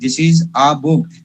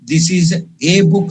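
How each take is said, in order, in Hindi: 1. Article एक छोटी 'uh' ध्वनि है। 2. आर्टिकल एक लंबी 'ay' ध्वनि है। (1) "हमेशा this is अ book" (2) "this is ए book नहीं"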